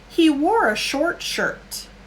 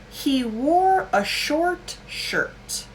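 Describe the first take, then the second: First: It is said at natural fast speed. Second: It is said slowly and carefully. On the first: "I will do it native speed" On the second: "one more time for the exercise"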